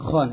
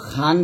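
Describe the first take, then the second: First: "খন" with a rounded o-like vowel; full "খন", not a thin khan; correct thick "খন". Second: "খান" with an open a vowel; the mistaken unrounded "খান"; wrong thin "খান". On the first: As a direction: scrape "খন" heavily from the throat. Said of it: "তো এটা কিন্তু খান বলবেন না". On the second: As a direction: say "খান" light, with a plain ah. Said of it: "খান বলবেন না". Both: Shown as a demonstration.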